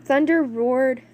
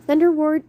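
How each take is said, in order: First: Said in the usual way. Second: Louder, higher, more dramatic read; dramatic reread. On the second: Shown as a demonstration. Narrator retaking the thunder line, louder and dramatic. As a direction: boom it out like thunder. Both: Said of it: "Blah, blah, I can't speak".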